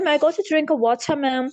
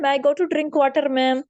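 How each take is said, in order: First: It is said in a British accent. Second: It is said in a South Asian accent. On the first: "UK की मैं बात करूं, Britain की, तो वो पढ़ते हैं" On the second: "बच्चे यहाँ पर स्कूल में बोलते हैं ... ये गलत है"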